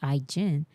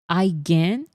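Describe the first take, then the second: First: The g is soft, as in gin. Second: The g is hard, as in begin. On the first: "It's literally the drink gin" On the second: "I guess like begin"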